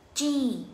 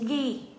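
First: The word starts with a strong ch sound. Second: The word starts with a soft g sound. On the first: The speaker calls it right. "không phải là ghi mà là chữ chi" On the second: The speaker calls it wrong. "rất là nhiều người đọc chữ ghi"

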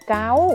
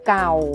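First: The syllable has a high tone. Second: The syllable has a low tone. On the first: "เสียงตรีวรรณยุกต์ตรี" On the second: "เสียงเอกคือเก่า"

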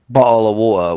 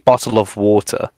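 First: It is pronounced casually, with sounds reduced. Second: It is pronounced carefully, every sound said fully. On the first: "will come out if I say it casually" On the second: "I can say bottle of water"

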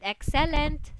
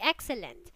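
First: The stress falls on a misplaced syllable. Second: The stress falls on the usual syllable. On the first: The speaker calls it wrong. "earlier you said excellent, so that's wrong" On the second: The speaker calls it right. "It should be excellent"

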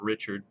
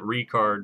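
First: The name is said with the English pronunciation. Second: The name is said with the German pronunciation. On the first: The speaker calls it wrong. "not Richard" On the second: The speaker calls it right. "They pronounce it Richard"

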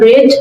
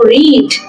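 First: The vowel is short, sounding like 'red'. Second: The vowel is long, sounding like 'reed'. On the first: The reading is already finished. "উচ্চারণ রেড হয়ে যাবে" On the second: The reading has not happened yet. "তখন read হবে"

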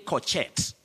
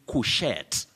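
First: The first syllable is said as 'co'. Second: The first syllable is said as 'coo'. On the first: The speaker calls it wrong. "Don't say cochette" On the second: The speaker calls it right. "It's couchette. You say coo"

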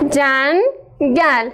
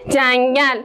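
First: The word is split into two separate syllables. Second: The word is said smoothly without a break.

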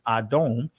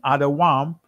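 First: The word is said with two syllables. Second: The word is said with three syllables. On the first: This is the modern form of the word. "this is the Israeli pronunciation" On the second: This is the ancient form of the word. "this is the ancient pronunciation"

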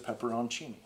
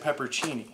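First: The word has five syllables, including 'on'. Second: The word has four syllables, without 'on'. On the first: The speaker calls it right. "I didn't realize there was an O-N in there, but there is" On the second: The speaker calls it wrong. "I always said peppercini"

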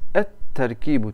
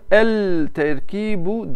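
First: The l is dropped and the t is doubled. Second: The l of the article is pronounced. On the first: The speaker calls it right. "T'yi iki yapacaksınız. Lam okunmaz" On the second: The speaker calls it wrong. "Bunu el terkibu diyemezsiniz"

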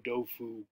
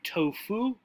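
First: The word begins with a d sound. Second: The word begins with a t sound. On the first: "In Chinese, the T would have a D sound" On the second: "In English, we would say tofu"

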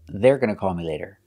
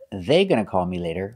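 First: An R sound follows they before gonna. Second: There is no R sound after they. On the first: The speaker calls it right. "it's very important to make that R sound" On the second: The speaker calls it wrong. "Not they gonna call me later"

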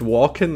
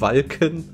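First: The vowel sounds English-like, as in 'walk'. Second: The vowel is a short German 'a'. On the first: The speaker calls it wrong. "Es ist nicht Walken" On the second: The speaker calls it right. "es ist Walken"

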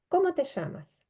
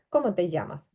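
First: The double L is said as an sh sound. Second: The double L is said as a y sound. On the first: This is how it is said in Argentina or Uruguay. "в Аргентині чи в Уругваї ця подвійна Л читається як Ш" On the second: This is the form learners should remember. "Це просто «ї». От запам'ятайте, «ї»"

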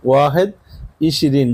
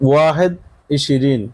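Both takes have the same delivery.

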